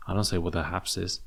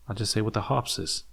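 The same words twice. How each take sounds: First: Said in the usual way. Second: Higher pitch, "harps" as "hahps" with an open ah; mock Tasmanian vowel. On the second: Shown as a demonstration. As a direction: punch up "harps", broad ah and no r. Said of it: "I just say what the harps is".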